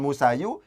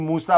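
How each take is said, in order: First: The word ends with an added 'u' vowel. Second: The word ends on a long plain 'a'. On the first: The speaker calls it wrong. "bukan Musayu" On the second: The speaker calls it right. "ini Musa"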